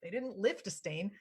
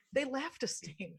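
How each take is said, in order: First: "lift" said with a short i sound, like the word lift; "lift" pronounced /lɪft/ as the mistaken reading; wrong vowel. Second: "left" said with a clear e sound, /lɛft/; "left" pronounced carefully with e as in bet; corrected vowel. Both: Shown as a demonstration.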